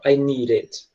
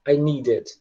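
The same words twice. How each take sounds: First: "I need it" with the D flapped like an R; American "I need it", D softened into an R tap. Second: "I need it" keeping the D hard; British-style "need it" with a proper D; British true D. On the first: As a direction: say "need it" as "nee-rit". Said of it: "e não". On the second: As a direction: say "I need it" without flapping the D. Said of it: "pronuncia como um D mesmo". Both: Shown as a demonstration.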